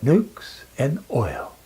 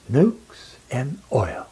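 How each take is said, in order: Both takes have the same delivery.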